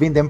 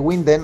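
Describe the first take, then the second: First: The name begins with a V-like sound. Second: The name begins with an English-like W sound. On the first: The speaker calls it right. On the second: The speaker calls it wrong.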